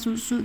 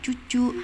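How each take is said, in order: First: The word starts with a clear s sound. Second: The word starts with a ch sound. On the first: The speaker calls it right. "pakai bahasa yang bener" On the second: The speaker calls it wrong. "enggak yang dicadel-cadel"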